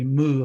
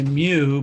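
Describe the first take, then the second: First: The word rhymes with a cow's moo. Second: The word is said with a 'yoo' sound. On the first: This is the Greek way of saying it. "for Greek, it would be moo, like a cow" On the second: This is the common English way of saying it. "people often say mu"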